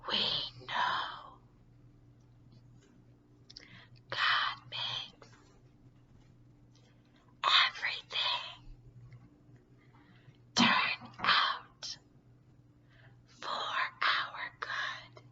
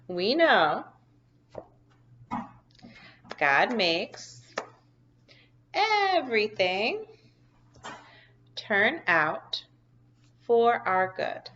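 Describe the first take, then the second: First: It is spoken in a whisper. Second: It is spoken in a normal voice. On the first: "So let's try to whisper it" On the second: "I'm going to say it regular first"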